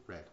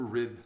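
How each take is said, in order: First: "read" said like "red"; past-tense pronunciation. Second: "read" said like "reed"; present-tense pronunciation. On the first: Preacher switches pronunciation of word. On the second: Preacher corrects his reading of word. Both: Real, not acted.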